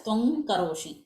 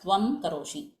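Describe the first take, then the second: First: The nasal blends into the following k as ng. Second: The nasal is kept as a separate m sound. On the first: The speaker calls it right. "if you are making it fast, then you have to say it as" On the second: The speaker calls it wrong. "and not as"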